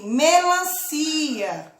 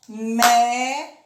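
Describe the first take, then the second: First: Said in the usual way. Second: "Melancia" in four spaced beats, me - lan - ci - a; split into syllables. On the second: Shown as a demonstration. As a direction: sound out "Melancia" syllable by syllable, with pauses. ("Melancia" separado em sílabas: me - lan - ci - a) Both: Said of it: "Quatro vezes eu bati a mão".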